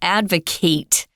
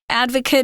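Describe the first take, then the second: First: The last syllable has a full 'ate' vowel. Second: The last syllable has a weak, reduced vowel. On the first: It means to support something publicly. "If you use the verb form, it's advocate" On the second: It names a person who supports something. "Advocate is the person, the noun form of this word"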